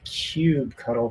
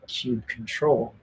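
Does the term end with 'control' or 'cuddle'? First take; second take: cuddle; control. First: The term ends with the sound 'cuddle'. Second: The term ends with the word 'control'. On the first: "I think I pronounced it cube cuddle for the longest time" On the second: "it might be cube control"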